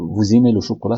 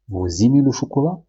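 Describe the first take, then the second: First: The voice stays flat without a question rise. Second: The voice rises at the end like a question. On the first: It is stated as a fact. The speaker calls it right. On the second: It is asked as a question. The speaker calls it wrong.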